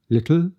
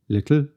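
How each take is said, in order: The two takes are said the same way.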